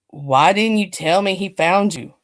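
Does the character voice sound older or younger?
younger. It is read in a younger character voice. The line is voiced as the right character. The speaker calls it right. "so we're going to go with the younger voice"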